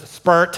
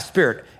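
First: It is said in an Irish accent. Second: It is said in the speaker's plain accent.

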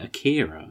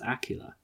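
First: The name is said with an English pronunciation. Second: The name is said with a Japanese pronunciation. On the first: The speaker calls it wrong. "even when we keep saying Akira" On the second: The speaker calls it right. "it's Akira"

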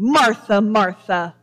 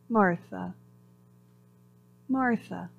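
First: It is said in a flat, scolding tone. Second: It is said in a soft, gentle tone.

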